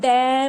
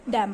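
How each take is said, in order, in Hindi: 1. स्वर पर ज़ोर है और वह लंबा खिंचा हुआ है। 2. स्वर छोटा है और हल्के से बोला गया है। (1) "हम डैम नहीं बोलते हैं" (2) "डैम बोलते हैं"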